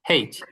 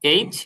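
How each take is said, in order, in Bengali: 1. অক্ষরের নামটি h ধ্বনি দিয়ে শুরু হয়। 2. অক্ষরের নামটি একটি স্বরধ্বনি দিয়ে শুরু হয়। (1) "দুইটাই বলতে পারেন।" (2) "এইচ বা হেইচ"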